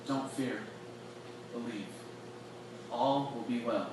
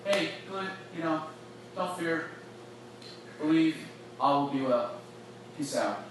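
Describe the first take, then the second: First: Much softer, close and quiet; tender and intimate. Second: Breezy and offhand, lightly dismissive; casual brush-off. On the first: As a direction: speak gently straight into his eyes. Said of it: "I can see Jesus like". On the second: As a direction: toss it off like a passing goodbye. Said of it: "It's not like". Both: Pretend.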